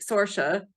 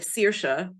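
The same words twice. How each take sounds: First: Saoirse said wrongly as "SOR-sha"; mispronounced Saoirse. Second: Saoirse said as "SEER-sha"; correct Irish Saoirse. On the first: Author showing the wrong way to say Saoirse, "SOR-sha". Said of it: "you know, if you say". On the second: Author correcting people on Irish Saoirse, "SEER-sha". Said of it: "instead of Saoirse". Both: Shown as a demonstration.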